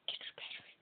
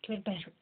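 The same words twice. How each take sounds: First: Fading to a whisper. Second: Said in the usual way. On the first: Shown as a demonstration. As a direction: repeat it, dropping to a whisper. Repeats the goal, fading to a whisper.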